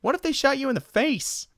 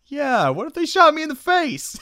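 First: Much higher silly voice; goofy worried question. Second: Much higher and louder comic voice; mock-outraged echo. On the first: Retold or imitated. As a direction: ask it like a dim worried friend. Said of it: "First thing Jim Carrey says". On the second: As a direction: throw the question back, hammed up. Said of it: "It's like".

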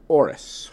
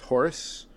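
First: "Horus" with the H dropped; silent H. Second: "Horus" with an audible H, as a question; pronounced H. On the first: Podcaster trying a Spanish surname, "Horus" with silent H. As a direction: say "Horus" starting on the vowel, no H sound. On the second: Podcaster unsure of a wrestler's surname, "Horus" with sounded H. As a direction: sound the H at the start of "Horus", rising. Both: Real, not acted. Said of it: "Spanish, you don't pronounce the H".

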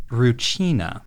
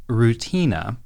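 First: Rucina said roo-CHEE-na; Rucina, middle syllable "chee"; Japanese-style pronunciation. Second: Rutina with a hard t, roo-TEE-na; Rutina, middle syllable "tee"; spelling pronunciation. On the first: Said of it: "but it's pronounced Rucina". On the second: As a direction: say Rutina as written, with a plain t. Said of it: "it's written Rutina". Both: Shown as a demonstration.

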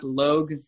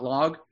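First: "Logue" said with a long O, like rogue. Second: "Log" said with the open vowel of dog; short vowel in Log. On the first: Host showing how translators read the name, "Logue" with a long O. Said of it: "they were reading it as Logue". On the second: Host showing the original town name, "Log" with an open vowel. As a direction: say "Log" like a log of wood. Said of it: "not Log". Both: Shown as a demonstration.

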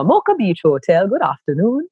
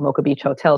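First: A polite standard Jamaican phone greeting, pitched a bit higher; hotel receptionist greets a caller in formal standard Jamaican. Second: Said in the usual way. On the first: Retold or imitated. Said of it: "very formal, kind of standard Jamaican". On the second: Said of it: "pick up the phone and go".

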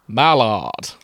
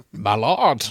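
First: Hammed-up, booming actor's call; Matt Berry. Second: A short, mock-statesman call; Winston Churchill. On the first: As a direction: relish the name like a theatrical actor. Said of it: "He's getting Matt Berry". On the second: Shown as a demonstration. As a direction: put on a grand wartime-leader voice. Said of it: "do a Churchill impression".

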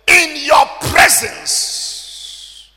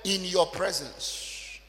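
First: Slow drawn-out shout on "in your presence."; emphasized phrase. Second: Soft and slow "in your presence,"; quiet emphasis. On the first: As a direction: stretch "in your presence." out, loud and high. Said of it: "Underline the word". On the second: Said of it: "underline the word". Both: Shown as a demonstration.

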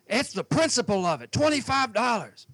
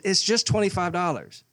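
First: Mock outraged boater. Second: Said in the usual way. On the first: Boater complaining about the fee.

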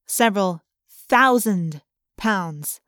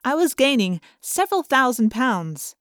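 First: Several thousand pounds, drawn out slowly with weight on thousand; slow down and lean on thousand; slow stress on thousand. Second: Said in the usual way. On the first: A narrator's reading.

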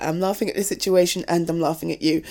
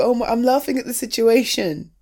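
First: Laughing admission. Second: Said in the usual way. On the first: Acted. Admitting to her partner she laughs at them, giggling. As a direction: lower and fast, giggling through it.

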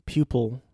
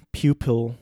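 The two takes are said the same way.

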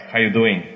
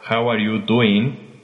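First: "How you doing?" slurred into one quick phrase, "are" dropped; casual Aussie-style "How you doing?" with words merged; run-together greeting. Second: "How are you doing?" slowly, every word separate; careful full form. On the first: Retold or imitated. Recalling travellers' greetings, casual run-together pronunciation. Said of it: "Me acuerdo que se saludaban". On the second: Shown as a demonstration. Explaining the phrase really being said, slow careful enunciation. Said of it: "estaban diciendo otra frase".

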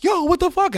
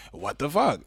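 First: High-pitched mock shriek of disbelief; cousin's shocked squeal. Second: Flat disbelief. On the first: Cousin on the phone about Brexit, high shocked shriek. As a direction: squeak it out like you can't believe it. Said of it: "And she was like". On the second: Retold or imitated. Caller answering his cousin, flat stunned disbelief. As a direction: say it drained and resigned. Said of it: "And I was like".

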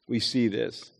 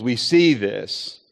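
First: Much softer, dropped echo; soft repeat. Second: Drawn out, slow and weighty; slow emphasis. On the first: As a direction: lower and hushed, as an aside. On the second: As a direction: lower and slow, let it sink in. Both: Shown as a demonstration.

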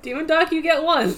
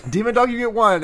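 First: Mock summoning line. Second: Echoed summoning line. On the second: Retold or imitated.

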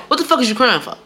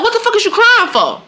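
First: Lightly voiced scolding grandma; milder mock scolding, close to own voice; grandma's scolding. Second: High, scolding grandma impression; high-pitched mock scolding; loud Jamaican grandma. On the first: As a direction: repeat the grandma's telling-off, toned down. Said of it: "that's what she would say". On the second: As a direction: imitate a grandma's sharp telling-off. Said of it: "so it was loud".

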